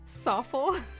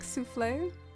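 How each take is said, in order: First: It is said like 'soffle'. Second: It is said like the dish 'souffle'. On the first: This is how it was said in childhood. "As a kid, I pronounced it Soffle" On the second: This may be the proper way to say it. "Is it said like souffle?"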